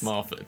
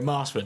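First: The name is said without an 'sh' sound. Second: The name is said with an 'sh' sound. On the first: This is how locals say it. The speaker calls it right. "no, it's Marford" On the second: This is how an outsider says it. The speaker calls it wrong. "when people from other places come in, they go Marshford"

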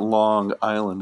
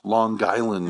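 First: The two words are said separately. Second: The two words run together as one. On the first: The speaker calls it wrong. "you don't say it Long Island" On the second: The speaker calls it right. "It's all one word, long, and it's L-O-N, Guyland"

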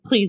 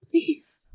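First: It is said plainly, without a sigh. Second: It is said breathily, on a sigh.

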